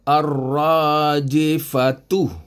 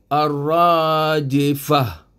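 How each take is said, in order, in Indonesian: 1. Kata ini berakhir dengan bunyi t dan u. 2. Kata ini berakhir dengan bunyi h. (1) "Ini ta marbutah. Ta marbutah ni berbaris depan" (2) "Bila kita berhenti, jadilah dia ar-rajifah"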